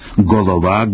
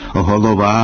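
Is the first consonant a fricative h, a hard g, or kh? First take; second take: hard g; fricative h. First: It starts with a hard stop g sound. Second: It starts with a soft fricative h sound. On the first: The speaker calls it wrong. "казати «голова»" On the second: The speaker calls it right. "замість «голова»"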